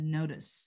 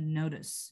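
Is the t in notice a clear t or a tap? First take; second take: tap; tap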